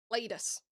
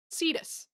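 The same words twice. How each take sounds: First: Cletus said with a clear L, as KLEE-tus; the mistaken name Cletus, with an L sound; wrong name Cletus. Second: Cetus said SEE-tus with no L; the correct name Cetus, with a plain S at the start. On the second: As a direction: say Cetus, the right name, without the L. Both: Shown as a demonstration. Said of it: "It's Cetus, not Cletus".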